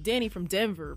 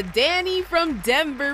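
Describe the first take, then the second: First: "Danny from Denver" said lower and softer, relishing the sound; savoring the name. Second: Said in the usual way. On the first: Shown as a demonstration. DJ savoring the winner's name, lower and softer. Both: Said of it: "has a nice little ring to it".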